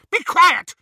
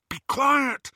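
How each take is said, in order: First: High, piercing screamed order. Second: High, tense order; urgent hushing. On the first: Bellatrix silencing her sister Narcissa, screaming. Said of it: "But Bellatrix screamed". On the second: Harry trying to silence bellowing Ron, urgent. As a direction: hush him urgently without screaming. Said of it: "Harry said". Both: A narrator's reading.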